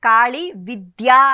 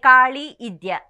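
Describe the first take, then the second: First: The second word starts with a v sound. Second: The second word starts with a vowel. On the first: The speaker calls it right. "ఆయనకి కాళీ విద్య అని అంటం కూడా రాదట" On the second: The speaker calls it wrong. "ఆ ద్యా కూడా పలకడం రాక"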